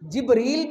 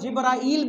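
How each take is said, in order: First: The name is said with a long 'ee' vowel. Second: The name is said with an 'aa-i' vowel sequence. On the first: "जिब्रील भी तलफ़ुज़ है" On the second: "जिब्राइल भी तलफ़ुज़ है"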